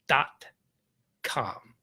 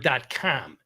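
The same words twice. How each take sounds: First: It is said in a plain, neutral accent. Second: It is said in a strong Chicago accent.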